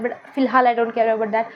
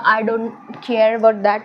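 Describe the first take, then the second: First: फिलहाल pressed hard, then the rest said slightly slowly; stress on फिलहाल. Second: I don't care about that, drawn out slowly word by word; slow emphatic denial. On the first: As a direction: lean on फिलहाल to mean for now only. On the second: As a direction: spell out each word slowly, with weight on about. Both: Shown as a demonstration. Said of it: "I care a lot about that".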